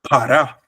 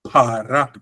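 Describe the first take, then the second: First: The word is said quickly, at conversational speed. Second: The word is said slowly, with drawn-out vowels. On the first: This is how it sounds in everyday conversation. "in normal speech, in normal speed" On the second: This is how it sounds when read carefully. "When you read it slowly"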